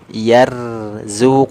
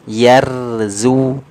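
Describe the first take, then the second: Both takes have the same delivery.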